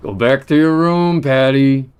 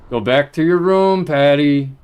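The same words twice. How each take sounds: First: Loud high yell; shouting. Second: Shouting. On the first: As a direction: shout the order again. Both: Real, not acted. Repeated shouted order.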